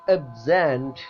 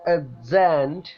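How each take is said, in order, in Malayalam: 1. Stress രണ്ടാമത്തെ സിലബിളിനാണ്. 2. Stress രണ്ടാമത്തെ സിലബിളിനാണ്.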